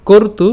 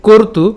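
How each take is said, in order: Both takes have the same delivery.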